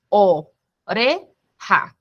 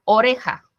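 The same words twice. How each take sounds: First: Oreja drawn out very slowly as o-re-ja; slow syllabified word. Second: Said in the usual way. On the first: Shown as a demonstration. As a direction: split oreja into syllables like a teacher. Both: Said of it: "como la palabra oreja".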